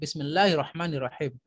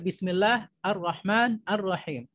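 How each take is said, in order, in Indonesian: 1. Kata-katanya tersambung dengan lancar tanpa jeda. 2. Kata-katanya terpisah dengan vokal yang berdiri sendiri. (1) "Harus sambung" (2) "kalau salahnya kita baca"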